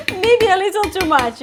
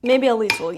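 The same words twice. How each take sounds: First: Laughing, louder and higher; sheepish laughing confession; laughing admission. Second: Said in the usual way. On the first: Real, not acted. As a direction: giggle it out while owning up. Admits too much pesto, laughing.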